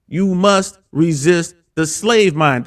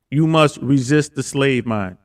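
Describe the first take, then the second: First: Slow, deliberate slogan delivery; host closes by repeating the slogan from Andrew Tate, slow and weighty; quoting Andrew Tate again. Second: Slow, weighty quote of a slogan; host repeats a slogan from Andrew Tate, slow and deliberate; quoting Andrew Tate. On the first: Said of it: "shout out to Andrew Tate". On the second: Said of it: "He says this all the time". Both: Retold or imitated.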